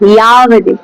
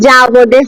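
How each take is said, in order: First: The word begins with a y sound. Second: The word begins with a j sound. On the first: The speaker calls it right. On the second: The speaker calls it wrong. "যাবদে হয় না সংস্কৃতে"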